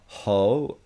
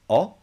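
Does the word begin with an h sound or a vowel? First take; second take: h sound; vowel. First: The word starts with an audible h sound. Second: The word starts directly with the vowel. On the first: The speaker calls it wrong. "it's not ho" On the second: The speaker calls it right. "it's O"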